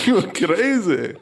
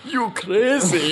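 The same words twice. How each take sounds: First: Put-on slow, drawn-out South African accent. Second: Put-on high, slow, drawn-out South African accent. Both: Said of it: "That was the South African accent, folks".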